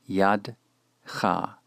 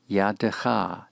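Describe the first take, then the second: First: The schwa is silent, giving two syllables. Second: The schwa is voiced, giving three syllables. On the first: The speaker calls it wrong. "not yadcha" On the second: The speaker calls it right. "the schwa after the dalet is vocalized"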